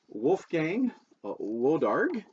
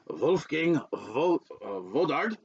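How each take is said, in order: First: The name is said with an American accent. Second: The name is said with a German accent.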